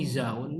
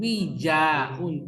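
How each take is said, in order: First: The middle consonant is a z sound. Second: The middle consonant is a j sound. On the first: The speaker calls it wrong. "Kok wizaun?" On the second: The speaker calls it right. "Jim, Jim"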